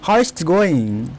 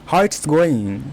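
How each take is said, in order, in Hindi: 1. 'Is it' छोटा होकर 'it's' बन जाता है। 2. 'Is it' छोटा होकर 'it's' बन जाता है।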